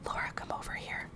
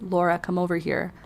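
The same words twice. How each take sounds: First: It is whispered. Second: It is spoken in a low voice.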